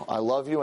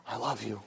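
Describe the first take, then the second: First: Said in the usual way. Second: "I love you" dropped much softer and low; almost swallow "I love you"; the soft take that was too quiet to hear. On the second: Acted. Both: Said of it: "complained last week that I said it too low".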